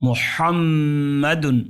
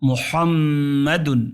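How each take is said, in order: No difference in how they are said.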